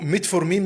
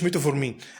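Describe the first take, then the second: First: No vowel is heard between t and f. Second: An extra o vowel comes between t and f. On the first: The speaker calls it right. "اسمه ميتفورمين" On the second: The speaker calls it wrong. "مش ميتوفورمين"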